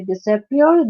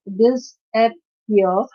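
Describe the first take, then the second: First: Said in the usual way. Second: "disappear" very slowly as dis-ap-pear; long gaps between the parts of "disappear"; syllable by syllable. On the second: Shown as a demonstration. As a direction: sound out each syllable of "disappear". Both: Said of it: "this is again a three-letter syllable".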